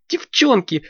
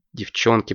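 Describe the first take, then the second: First: Put-on high, bright girlish Девчонки with a falling end; excited girl voice; high girl's call. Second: Said in the usual way. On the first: Алёнка calls friends.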